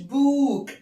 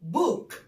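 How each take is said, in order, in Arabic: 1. الحركة ممدودة وطويلة. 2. الحركة تُنطق قصيرة وسريعة. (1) "ما قلتش book. no" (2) "بننطقها بسرعه شويه"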